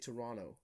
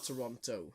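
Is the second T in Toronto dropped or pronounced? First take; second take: dropped; pronounced. First: The second T sound is dropped. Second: The second T sound is clearly pronounced. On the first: "You don't say the T. You say Toronto" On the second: "Not Toronto"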